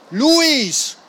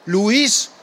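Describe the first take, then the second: First: "Luis!" called out high and urgent; alarmed cry of "Luis!", pitched high. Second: Tentative questioning call of his name; a worried, hesitant "Luis?" with a rising tune; uncertain question. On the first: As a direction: shout his name to wake him. No answer, calls louder. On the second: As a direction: ask his name, unsure he'll answer. Unsure call to pilot. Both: A narrator's reading.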